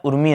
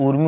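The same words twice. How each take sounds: First: उर्मी with a short उ, as the wrong form; wrong short vowel. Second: ऊर्मी with a long drawn ऊ; correct long vowel. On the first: Teacher warning students against the short उ. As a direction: keep the उ in उर्मी short to show the error. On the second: Teacher stressing the correct long ऊ for students. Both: Shown as a demonstration. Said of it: "उर्मी नहीं होता है".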